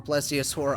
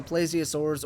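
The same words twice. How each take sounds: First: Plesiosaur with a short "e", PLESS-ee-uh-sor; alternate pronunciation. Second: Plesiosaurs with a long "ay", PLAY-zee-uh-sors; alternate pronunciation. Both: Real, not acted. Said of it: "I don't know how you pronounce it".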